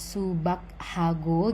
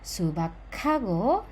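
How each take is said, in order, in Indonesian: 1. Kedua kata itu diucapkan terpisah. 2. Kedua kata itu diucapkan menyatu menjadi satu. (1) "bukan terpisah" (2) "langsung aja digabung"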